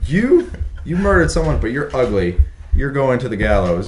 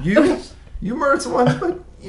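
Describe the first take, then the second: First: High-pitched mock sentencing; hammed-up judge condemning someone; mock English judge. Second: Squeaky-high mock hesitation over a sentence; smitten mock judge. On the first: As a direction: pass judgment in a raised, hammed-up voice. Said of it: "they're over in England. They're like". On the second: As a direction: waver comically, voice pitched way up. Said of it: "They're like".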